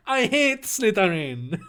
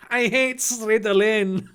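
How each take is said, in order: First: Higher Chinese caricature, breaking into laughter; mock Chinese accent, Slytherin with its L and R in place. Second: Slow, higher mock Chinese, Slytherin as "Sredalin"; mock Chinese accent, switching L and R in Slytherin; terrible Chinese accent. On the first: Draco insulting the Slytherin house, mock Chinese accent. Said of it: "he's Chinese now". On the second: Draco insulting the Slytherin house, terrible Chinese accent. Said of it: "pronounce Slytherin with a terrible Chinese".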